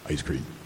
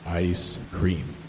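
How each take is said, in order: First: It is said at a normal speaking pace. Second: It is said somewhat slowly and drawn out.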